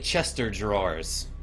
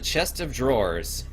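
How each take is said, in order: First: The 'of' merges, sounding like 'Chester drawers'. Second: The word 'of' is said as a separate word.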